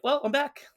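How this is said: It is said in a happy, upbeat tone. Coming home is a joyful event. "like, "Yay!""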